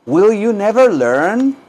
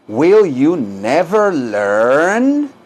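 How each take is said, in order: First: Quicker but still slow, raised questioning tune; higher-pitched repeat. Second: Extremely drawn-out question, long rising last word; slow repeat-after-me model. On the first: Teacher repeats the question for students, higher and less stretched. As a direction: lift the pitch and swing up at the end. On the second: Teacher models the question for students, extremely slow. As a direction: stretch every word right out. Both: Shown as a demonstration. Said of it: "Díganlo".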